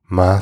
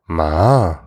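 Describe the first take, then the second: First: It is said with the tone meaning mom. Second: It is said with the tone meaning horse. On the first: It means mother. "Ma sounds like mom" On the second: It means horse. "you called someone a horse"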